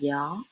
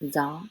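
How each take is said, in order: First: It starts with a soft y sound, southern style. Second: It starts with a z sound, northern style.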